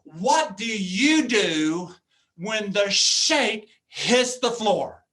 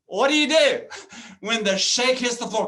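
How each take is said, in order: First: Slow, drawn-out question, each word weighed; What do you do when the shake hits the floor said slowly and deliberately, leaning on you. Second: Louder emphatic question. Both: Shown as a demonstration. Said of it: "repeats the question two ways".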